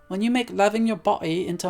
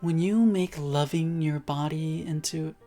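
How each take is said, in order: First: It is said in a British accent. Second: It is said in the speaker's usual accent.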